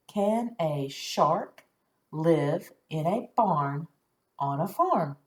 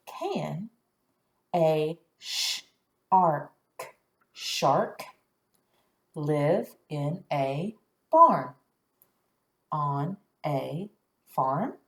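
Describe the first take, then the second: First: Slow, smooth question with a rise; smooth slow reading. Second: Slow, word by word; slow question reading. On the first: Teacher modelling a smooth question for the class. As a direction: read it smoothly as one question. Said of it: "nice and smoothly". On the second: Teacher reading with students, slow and careful. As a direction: sound each word out slowly. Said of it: "make it sound like a question". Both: Shown as a demonstration.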